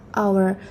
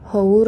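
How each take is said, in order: First: The word begins with a vowel, no h. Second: The word begins with an audible h sound. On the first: The speaker calls it right. "walaupun tulisannya h hour tapi kita bacanya hour" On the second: The speaker calls it wrong. "kita bacanya bukan hour ya"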